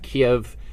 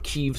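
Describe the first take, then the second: First: The name is said the Russian way. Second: The name is said the Ukrainian way. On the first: The speaker calls it wrong. "Kiev is the Russian pronunciation" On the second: The speaker calls it right. "or Kiev, sorry"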